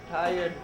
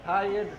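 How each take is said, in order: Both takes have the same delivery.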